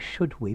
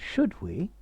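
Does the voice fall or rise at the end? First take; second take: fall; rise. First: The voice does not rise at the end. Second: The voice rises at the end. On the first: The speaker calls it wrong. "notice you're going should we" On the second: The speaker calls it right. "Make it a question. Make your voice go up at the end"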